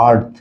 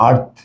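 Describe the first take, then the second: No difference in how they are said.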